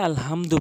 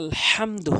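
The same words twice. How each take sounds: First: The h is a light, ordinary h sound. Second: The h is a strong h from mid-throat. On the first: The speaker calls it wrong. "এই হরফটি নিরানব্বই পার্সেন্ট লোক ভুল উচ্চারণ করে থাকে" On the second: The speaker calls it right. "হলকের মাঝখান থেকে উচ্চারণ করতে হবে"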